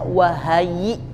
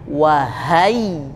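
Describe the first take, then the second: First: The y sound is short and not doubled. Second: The y sound is doubled and pressed. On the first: The speaker calls it wrong. "Tadi kebablasan ya-nya dibaca wahai" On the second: The speaker calls it right. "Harusnya wahai"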